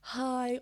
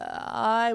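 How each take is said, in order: First: The vowel starts with a breathy h sound. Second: The vowel starts with a creaky vocal fry. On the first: "doing aspirate" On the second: "with a vocal fry"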